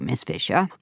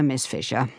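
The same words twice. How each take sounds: First: Purring. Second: A dismissive, lofty Miss Fisher; condescending. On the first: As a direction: purr the name, flattered. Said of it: "he purred". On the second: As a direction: put her in her place with the name. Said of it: "said the policeman condescendingly". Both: A narrator's reading.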